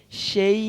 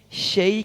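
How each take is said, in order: Both takes have the same delivery.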